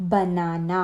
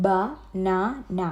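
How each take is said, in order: First: Said in the usual way. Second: ബനാന very slowly as "ba, na, na"; three separate beats with pauses in ബനാന; split into syllables. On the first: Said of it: "three syllable words". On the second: Shown as a demonstration. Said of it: "three syllable ആയി". (ബനാന മൂന്നായി മുറിച്ച്, "ബ, നാ, ന")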